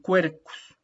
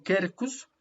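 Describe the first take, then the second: First: "quercus" slowly as "kwer-kus", U sounded; correct Latin. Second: "quercus" as Spanish "ker-kus", U silent; the mistaken silent U; wrong reading. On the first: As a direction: stress the kw in "quercus". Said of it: "sino cue". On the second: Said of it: "no sería un quercus, sino un quercus". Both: Shown as a demonstration.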